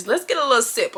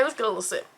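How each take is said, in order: First: Said in the usual way. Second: Softer repeat. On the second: Real, not acted. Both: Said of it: "sip aside".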